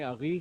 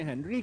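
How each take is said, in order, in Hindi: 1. इस नाम का उच्चारण फ़्रेंच लहजे में होता है। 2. इस नाम का उच्चारण अंग्रेज़ी लहजे में होता है। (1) "फ्रेंच के लहजे में अगी कहलाता है" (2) "अंग्रेजों के लहजे में हेनरी कहलाता है"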